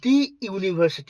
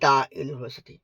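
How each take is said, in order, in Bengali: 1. 'The' উচ্চারিত হয় দীর্ঘ 'ee' স্বরধ্বনি দিয়ে। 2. 'The' উচ্চারিত হয় হ্রস্ব 'uh' স্বরধ্বনি দিয়ে। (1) "হ'ব লাগিছিল, কিন্তু নহয়" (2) "তাত দা ইউনিভাৰ্চিটি হ'ব"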